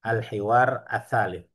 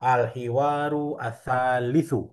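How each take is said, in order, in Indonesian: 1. Kedua kata berakhir tanpa akhiran vokal terakhirnya. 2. Kedua kata berakhir dengan akhiran vokal lengkapnya. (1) "Seperti ini" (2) "Kalau mau dibaca semua"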